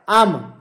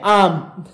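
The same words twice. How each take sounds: First: "आम" the Kumaoni way, falling and shorter; Kumaoni pronunciation. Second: "आम" with the long Hindi aa, like the mango; read as written. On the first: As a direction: say "आम" short, as for grandmother. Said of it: "इसका उच्चारण कैसे होता है". ("आम" कुमाऊनी ढंग से, छोटा) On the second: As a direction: read "आम" plainly as spelled, vowel held. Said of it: "इनका उच्चारण करके भी". ("आम" हिंदी के फल जैसा) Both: Shown as a demonstration.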